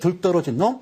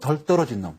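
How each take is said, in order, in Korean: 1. 사투리 억양으로 말합니다. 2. 표준어 억양으로 말합니다. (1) "사투리로" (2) "표준어로"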